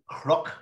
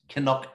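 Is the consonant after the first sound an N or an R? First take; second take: R; N. First: The N is pronounced like an R. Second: The N is pronounced with a vowel before it. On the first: This is how Ulster speakers say it. "We pronounce the N as if it's an R. So we say crook" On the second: This is how southern speakers say it. "Down south, they'll say Canuck"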